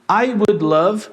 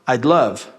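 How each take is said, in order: First: It is said as three full separate words. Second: The first two words are contracted into one.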